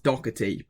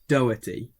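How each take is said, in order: First: The middle has a hard k sound. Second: The middle has no hard k sound. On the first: The speaker calls it wrong. "I thought it was Doherty, but it's not Doherty because it's not a C K" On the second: The speaker calls it right. "There's no C or K in it, so it's Doherty"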